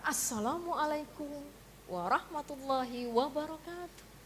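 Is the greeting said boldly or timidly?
boldly. The greeting is said boldly and with confidence. The speaker is confident and commanding. The speaker calls it right. "dengan gagahnya"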